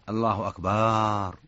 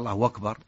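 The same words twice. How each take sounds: First: The vowel after b is lengthened. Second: The final r is followed by a long u vowel. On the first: It changes the meaning to drums. "أو مد الباء" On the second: The meaning stays the same. "أشبع الأتى بواو"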